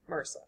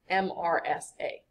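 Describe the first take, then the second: First: It is said as a single word. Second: Each letter is said separately. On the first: "we try to pronounce them as if they're words" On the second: "It's an acronym"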